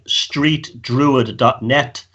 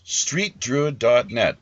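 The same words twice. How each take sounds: First: Very slow, spelling it out; slow and clear. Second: Slow, careful read-back; slow repeat. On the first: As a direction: say the web address slowly and deliberately. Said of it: "spelling out website slowly". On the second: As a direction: repeat the address back slowly. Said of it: "host repeats the web address". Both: Shown as a demonstration.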